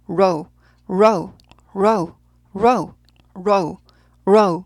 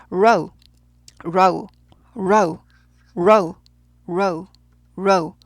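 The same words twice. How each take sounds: No difference in how they are said.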